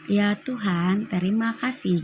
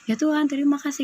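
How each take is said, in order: First: It is said at a normal, relaxed pace. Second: It is said quickly and hurriedly.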